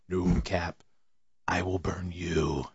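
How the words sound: It is said in a menacing, threatening tone. The message is a serious threat. "I put my own inflection on that"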